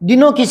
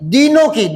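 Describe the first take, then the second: First: The first vowel is short and quick. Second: The first vowel is held long. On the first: It sounds like serving the days. The speaker calls it wrong. "यूं बोलोगे क्या" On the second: It means serving the poor. The speaker calls it right. "दीन जोर आएगा, यहां time लगेगा"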